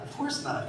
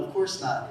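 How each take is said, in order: First: Whisper. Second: Said in the usual way. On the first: Acted. Whispered repeat to himself.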